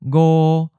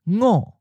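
First: It is said in the seventh tone. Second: It is said in the second tone. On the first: This is the colloquial reading of the number. "go 7th tone" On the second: This is the literary reading of the number. "ngo 2nd tone"

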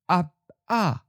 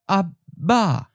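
First: The middle consonant is a voiceless P sound. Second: The middle consonant is a voiced B sound.

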